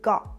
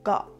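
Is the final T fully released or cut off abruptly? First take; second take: cut off; cut off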